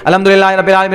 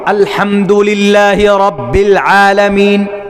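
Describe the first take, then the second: First: It is recited quickly and hurriedly. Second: It is recited slowly and carefully.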